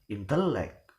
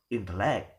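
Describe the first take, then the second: First: The stress is on the middle syllable. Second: The stress is on the last syllable. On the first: "give the stress in in the penultimate" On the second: "or in the last"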